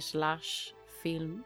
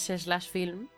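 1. El nombre se dice despacio. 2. El nombre se dice a un ritmo normal.

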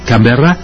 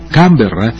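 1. El acento está en la última sílaba. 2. El acento está en la primera sílaba. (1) "en francés es Canberra con el acento en la última A" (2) "En pronunciación local sería el acento sobre la primera sílaba"

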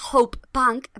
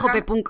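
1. Se dice con acento inglés. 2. Se dice con acento español. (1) "en teoría debería ser Hope Punk" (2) "se va a decir Hope Punk, maloles, lo siento"

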